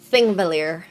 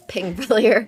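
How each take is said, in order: First: The word begins with a th sound. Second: The word begins with a p sound. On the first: The speaker calls it right. "it's pronounced like a T. It's like a th sound" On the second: The speaker calls it wrong.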